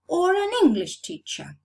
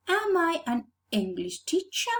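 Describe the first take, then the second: First: "teacher" stressed, meaning one who teaches English. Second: "English" stressed, meaning the nationality. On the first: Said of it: "English is the subject I teach". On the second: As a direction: lean on "English" in "English teacher". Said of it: "What am I?". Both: Shown as a demonstration.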